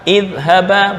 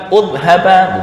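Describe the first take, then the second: First: The word begins with an i vowel. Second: The word begins with a u vowel. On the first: The speaker calls it right. "hamzah dibaca kasroh" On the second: The speaker calls it wrong.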